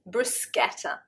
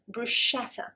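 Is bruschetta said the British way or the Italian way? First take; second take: Italian; British. First: It is said in the Italian way. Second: It is said in the British way. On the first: The speaker calls it right. "corrected my mispronunciation" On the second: The speaker calls it wrong. "The British, I think probably nine point nine times out of ten, will pronounce it bruschetta"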